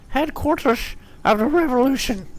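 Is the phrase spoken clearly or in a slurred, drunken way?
slurred. The phrase is spoken in a slurred, drunken way.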